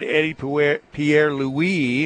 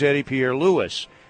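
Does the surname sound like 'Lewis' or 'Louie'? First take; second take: Louie; Lewis. First: The surname sounds like Louie, without a final s. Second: The surname sounds like Lewis, with a final s. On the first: The speaker calls it wrong. "somehow we all got Eddie Pierre Louis" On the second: The speaker calls it right. "it is Eddie Pierre Lewis"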